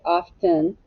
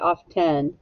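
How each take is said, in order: First: The second syllable has a short 'ih' vowel. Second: The second syllable has a short 'eh' vowel. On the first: "I hear a short I. I say often" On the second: "I don't say often"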